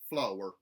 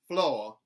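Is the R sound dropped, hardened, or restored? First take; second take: hardened; dropped. First: The R sound is hard and strong. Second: The R sound is dropped. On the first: "mountain, where the R sounds are retained, but they are hardened" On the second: "a general Southern dropped R"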